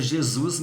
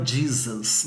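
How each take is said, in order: First: Said in the usual way. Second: Jesus said the English way, JEE-zus; Jesus in English, slowly, JEE-zus; English pronunciation of Jesus. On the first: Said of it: "a gente escreve Jesus". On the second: Shown as a demonstration. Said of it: "mas fala Jesus".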